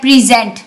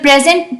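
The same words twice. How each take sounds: First: The stress is on the second syllable. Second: The stress is on the first syllable. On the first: It is a verb meaning to show something. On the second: It is a noun meaning a gift or being there.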